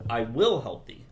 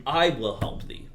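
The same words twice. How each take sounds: First: "will" pressed, "I" left light; stress on WILL. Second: "I" lifted and stressed, slow. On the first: Teacher shows the composer an accent on "will". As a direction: push the weight onto "will". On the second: Teacher shows the composer an accent on "I". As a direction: lean on the opening "I". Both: Shown as a demonstration. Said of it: "bring out what you think the important word is".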